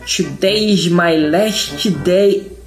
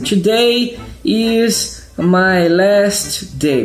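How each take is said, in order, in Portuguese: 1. A frase é falada rápido. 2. A frase é falada bem devagar. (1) "A pessoa não vai entender" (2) "Bem devagar, assim"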